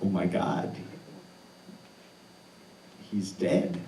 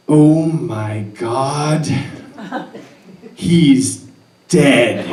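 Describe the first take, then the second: First: Stunned inner thought. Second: Slow, loud, higher cry of alarm; panicked yell. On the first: Frozen at the cliff top, thinking it to himself, hushed shock. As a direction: say it like the words barely make it out. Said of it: "stand there and think to myself". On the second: Woman at the cliff bottom yelling up in horror, loud panicked cry. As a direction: scream it down the cliff, drawn out. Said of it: "yelling out from the bottom of that cliff". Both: Retold or imitated.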